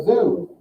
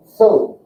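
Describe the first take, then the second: First: Said in the usual way. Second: "So" said as "tso" with a hard attack; German Z as TS. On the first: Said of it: "So it has a kind of a harder attack". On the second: Shown as a demonstration. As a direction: hit "So" with a T slipped in front. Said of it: "a harder attack to the first syllable".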